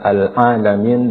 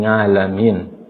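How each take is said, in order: First: "al-alamin" with throat ain, no nasal; proper ain. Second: "ngalamin" starting with a nasal ng; ain as nga. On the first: Teacher naming the word, throaty ain. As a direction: squeeze the a after "al" in "al-alamin" from the throat. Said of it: "kalimat al-alamin". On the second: Teacher showing the error, nga for ain. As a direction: replace the throat sound with "nga" in "ngalamin". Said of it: "dengan bunyi ngalamin". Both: Shown as a demonstration.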